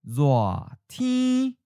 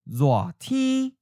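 First: It is said slowly and carefully. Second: It is said at a natural speed. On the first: "and then slowly" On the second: "First natural speed"

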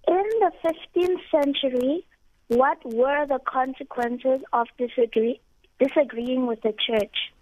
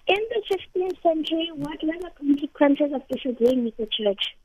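First: The question is said at a slower pace. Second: The question is said at a faster pace.

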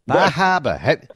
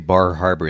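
First: It is said in a local Maine accent. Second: It is said in a standard, non-local accent. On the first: "Have you noticed the local accent? ... It's Bahaba" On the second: "They don't say Bar Harbor"

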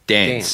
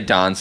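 First: The a vowel follows the speakers' own local pronunciation. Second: The a vowel follows the Adelaide pronunciation. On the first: This is how the speakers themselves say it. "we would say dance" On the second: This is how people in Adelaide say it. "Adelaide, they would say dance"

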